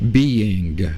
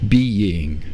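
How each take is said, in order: First: It is said in a put-on Southern drawl. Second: It is said in the speaker's ordinary accent.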